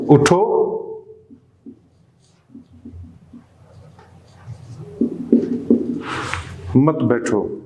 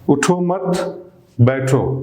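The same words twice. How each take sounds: First: The pause comes after 'utho'. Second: The pause comes after 'mat'.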